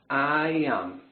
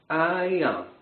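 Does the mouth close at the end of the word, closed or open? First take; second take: closed; open. First: The final m is said with the mouth closing. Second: The final m is said without closing the mouth. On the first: The speaker calls it right. "Agora fechando a boca" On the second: The speaker calls it wrong. "Sem fechar a boca"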